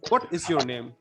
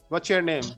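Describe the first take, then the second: First: It is said in a British accent. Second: It is said in an American accent. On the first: "That can be said as in British way" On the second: "That can be said as an American way"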